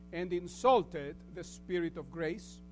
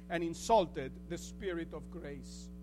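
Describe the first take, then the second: The two takes are said the same way.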